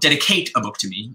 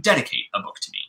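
First: The stress falls on the 'cate' syllable. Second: The stress falls on the first syllable 'ded'. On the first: The speaker calls it wrong. "You don't" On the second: The speaker calls it right.

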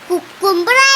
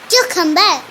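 First: The first syllable sounds like kook. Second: The first syllable sounds like kyoo. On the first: The speaker calls it wrong. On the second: The speaker calls it right.

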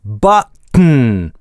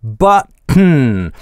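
Both takes have the same delivery.

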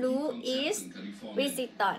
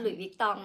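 First: The name is sounded out as it is spelled. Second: The name is said with French-style pronunciation. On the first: The speaker calls it wrong. "ถ้าเราอ่านตัวก็จะเหมือนแบบว่า" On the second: The speaker calls it right. "แต่ว่ามันอ่านว่า"

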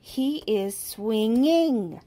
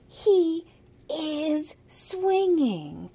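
First: The stress falls on the word swinging. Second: The stress falls on the word he. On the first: The verb needs its -ing ending. "if they're leaving off the ing at the end of the verb" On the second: The subject should be he, not him. "If they're saying him swinging"

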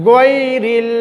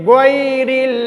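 The two takes are said the same way.

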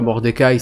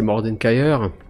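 First: The name ends without an r sound. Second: The name ends with an r sound. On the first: The speaker calls it wrong. "C'est pas Mordekaï" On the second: The speaker calls it right. "c'est Mordenkaïr"

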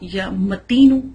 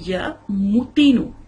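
First: The m is not followed by a 'u' vowel. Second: The m is followed by a 'u' vowel. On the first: This is how the word is written. "دیکھیں لفظ ہے یا متین" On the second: This is how the word should be recited. "لیکن پڑھا جائے گا یا متین. میم پیش ہوگی"

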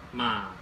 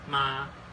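First: The pitch dips low then rises. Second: The pitch stays high and level. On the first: Horse. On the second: Mother.

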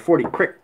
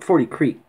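First: Creek is said short, like 'crick', Appalachian-style. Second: Creek is said with a long ee vowel.

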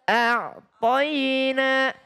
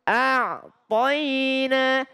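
The two takes are said the same way.

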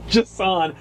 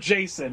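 First: The name is said slowly and in full. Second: The name is said quickly and shortened.

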